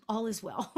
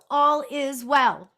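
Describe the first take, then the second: First: Said in the usual way. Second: All is well sung out slow and loud with a lilting tune; sing-songy. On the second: Real, not acted. Medium happily sings the reassurance to viewers. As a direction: stretch all is well into a bright sing-song. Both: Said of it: "I'm so sing-songy".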